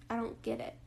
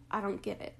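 First: Flat deadpan. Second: Said in the usual way. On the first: Retold or imitated. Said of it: "I said that super flatly". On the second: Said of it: "but, like".

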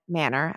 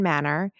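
First: Said in the usual way. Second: A touch of British in the vowels; accidental British lilt on "Manor"; slight British accent. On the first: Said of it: "I don't know why I said it". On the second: Real, not acted. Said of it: "like, a British accent there".

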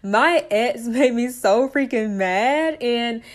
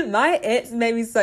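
First: Laughing. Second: A burp breaking into the words. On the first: Redoes line after burp, laughing. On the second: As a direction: talk through a small burp. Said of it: "excuse me, I had to burp". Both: Real, not acted.

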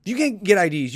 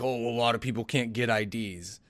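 First: Incredulous retort. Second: Patronizing tone. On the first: Real, not acted. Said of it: "retort to the patronizing quote". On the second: Retold or imitated. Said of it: "the patronizing tone to be like".

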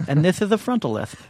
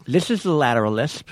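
First: "frontal lisp" with s said as th, tongue forward; lisping "this is the frontal lisp", laughing. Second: Slushy lisp on "This is the lateral lisp", s spilled sideways. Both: Shown as a demonstration.

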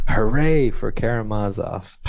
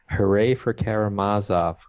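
First: Rousing cry. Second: Mild, understated hooray; a restrained cheer within a reading. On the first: Reading the boys' answering cry to co-host, louder cheer. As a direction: raise a read-aloud hurrah. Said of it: "took up his cry". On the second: Reading the boys' cry to co-host, mild cheer. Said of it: "cried once more". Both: A narrator's reading.

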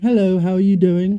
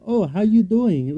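First: Lightly imitated British accent, raised pitch; put-on British greeting, a bit louder. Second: Slow, higher mock Chinese accent; imitated Chinese accent. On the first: Co-host imitates the London woman before her coma, British accent. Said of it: "a British accent". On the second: Co-host imitates the London woman after her coma, Chinese accent. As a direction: put on a rough Chinese-accented English. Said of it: "she spoke English in a Chinese accent".

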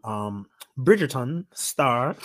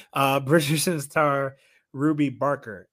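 First: Slow, clumsy put-on British accent; terrible accent. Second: Said in the usual way. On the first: Shown as a demonstration. Host introducing a clip, in a botched British accent. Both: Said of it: "that's a terrible accent".

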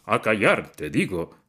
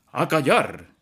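First: Thundering command; roaring. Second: Father's furious shout, much louder and higher; explosive command. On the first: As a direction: bellow the order again. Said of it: "bramó". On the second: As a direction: bark the order to silence him. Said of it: "gritó". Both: A narrator's reading.

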